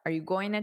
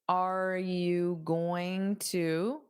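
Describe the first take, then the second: First: It is spoken at a normal, natural pace. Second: It is spoken slowly and deliberately.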